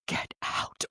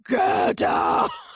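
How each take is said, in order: First: It is said in a normal reading voice. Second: It is said in a weird, malevolent put-on voice.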